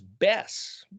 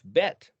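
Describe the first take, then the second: First: The word ends with an s sound. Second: The word ends with a t sound. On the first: "they'll pronounce it or they'll write it here as Bess" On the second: "is actually spelled Bet Yod Tav, Bet"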